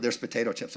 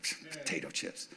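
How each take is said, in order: First: Said in the usual way. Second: Breathy whisper, scornful and low. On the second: Retold or imitated. Pastor scorning the chips in the cupboard, mock whisper. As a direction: hiss it at the chips with contempt.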